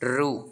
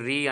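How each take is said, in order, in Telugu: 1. అక్షరం oo ధ్వనితో ముగుస్తుంది. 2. అక్షరం ee ధ్వనితో ముగుస్తుంది. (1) "నాట్ రు" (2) "ఉచ్చారణ వచ్చేసి మనకి రీ అంటారండి"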